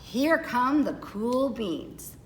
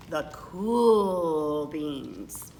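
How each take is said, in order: First: Said in the usual way. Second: Lower, very slow and laid-back; low, slow cool-guy drawl. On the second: A narrator's reading. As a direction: stretch it out like the coolest kid in school. Cool kids' grand entrance.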